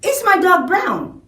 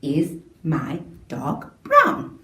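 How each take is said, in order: First: High questioning voice, falling at the end; asking tone. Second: Slow, low, rising on "brown"; question rise. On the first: Teacher demonstrating a question to pupils, high asking tone. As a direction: raise the voice to ask. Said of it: "what if I ask". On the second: Teacher modelling a question to the class, slow rise on "brown". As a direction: let "brown" climb slowly at the end. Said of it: "because I'm asking a question". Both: Shown as a demonstration.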